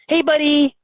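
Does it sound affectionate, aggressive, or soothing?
affectionate. It sounds warm and playful. The listener is being fondly greeted. "Petting a dog"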